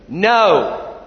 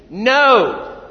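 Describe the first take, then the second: First: Louder firm no. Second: Loud, firm, higher no. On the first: Congregation's repeated no, said firmly and louder. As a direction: say no like you mean it. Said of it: "That's pretty good". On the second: Preacher drilling the congregation on a firm no. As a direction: plant your feet and say no. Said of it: "Let's try it again". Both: Shown as a demonstration.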